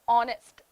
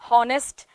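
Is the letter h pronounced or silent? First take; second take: silent; pronounced. First: The h is silent. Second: The h is pronounced. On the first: The speaker calls it right. "This is how you pronounce it in English" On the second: The speaker calls it wrong. "We start saying honest"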